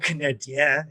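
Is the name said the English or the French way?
French. The name is said with Quebec French pronunciation. "you can go Canadien if you really want to make it Quebecois"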